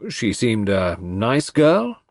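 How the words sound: The stress is on the word nice.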